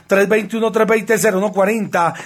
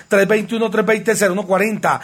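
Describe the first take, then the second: No difference in how they are said.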